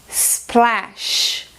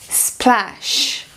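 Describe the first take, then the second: Both takes have the same delivery.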